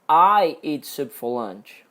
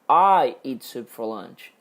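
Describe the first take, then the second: First: The word "I" carries the main stress. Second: The word "I" carries the main stress.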